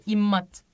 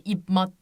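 First: İmmat with a doubled, held m and no p; teacher models İmmat, a bit louder; correct reading. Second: İpmat with a clear p before the m; the mistaken İpmat, said a bit louder; wrong reading. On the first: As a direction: hold the m in İmmat, then fall. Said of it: "İmmat gibi okunuyor arkadaşlar". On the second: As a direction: spell it out as İpmat, p pronounced. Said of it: "İpmat demiyoruz değil mi". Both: Shown as a demonstration.

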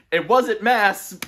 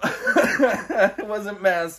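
First: Slow, high, stunned disbelief; drawn-out high let-down; dismayed disbelief. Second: Slow, high, laughing it off; laughing through a drawn-out line; laughing disbelief. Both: Real, not acted.

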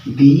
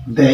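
First: दी with a long ee sound; the as 'dee'. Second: द said short, with a neutral vowel; the as 'duh'. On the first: Teacher listing the three sounds of the, दी long. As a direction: say दी, stretching the ee. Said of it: "एक उच्चारण होता है दी". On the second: Teacher listing the three sounds of the, द short. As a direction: say द with a short schwa. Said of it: "इसका एक तो उच्चारण होता है". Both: Shown as a demonstration.

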